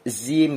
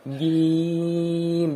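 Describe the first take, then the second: First: It begins with an airy z sound. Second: It begins with a firm j sound. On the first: The speaker calls it wrong. "timbul apa angin, zim gitu, nggak boleh" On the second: The speaker calls it right. "jangan masuk ke hidung"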